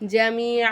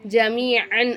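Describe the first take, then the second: First: The word ends with a long a vowel. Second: The word ends with an n sound. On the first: The speaker calls it right. "ஜமீஆ அப்படின்னு நம்ம இந்த இடத்துல சொல்லணும்" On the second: The speaker calls it wrong. "ஜமீஅன் அப்படின்னு சொல்லாமல்"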